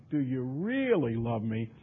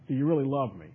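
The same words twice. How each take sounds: First: Slow question, "really" stretched long; stress on really. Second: Said in the usual way. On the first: Retold or imitated. Preacher voices Christ's third challenge, slow, "really" stretched. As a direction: draw "really" right out.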